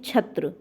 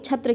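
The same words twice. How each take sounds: First: The first consonant is made at the palate. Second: The first consonant is made further back. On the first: The speaker calls it right. "Normally तालु से प्रयोग करते हैं" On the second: The speaker calls it wrong. "जिसका कंठ और मूर्धन्य से आप प्रयोग करते हैं"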